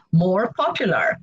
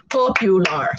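First: Said in the usual way. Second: "Popular" in three separate beats, POP-U-LAR; syllable by syllable. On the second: Shown as a demonstration. Teacher counts three syllables for learners, syllable by syllable. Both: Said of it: "three syllables".

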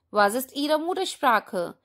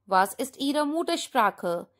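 The two takes are said the same way.

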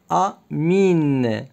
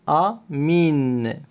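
No difference in how they are said.

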